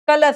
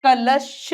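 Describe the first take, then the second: First: कलश ending in s; s error. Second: कलश ending in a held sh; sh sound. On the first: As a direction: say कलश wrongly as "kalas". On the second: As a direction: say कलश as "kalash-sha". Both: Shown as a demonstration. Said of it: "स नहीं".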